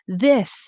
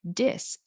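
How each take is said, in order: First: It begins with a soft th sound. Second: It begins with a hard d sound. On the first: The speaker calls it right. "You're able to say this and that" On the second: The speaker calls it wrong. "somehow you go back to using sounds from your own language"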